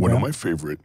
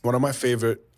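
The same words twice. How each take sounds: First: The voice is put on deep and low. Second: The voice is at its normal pitch.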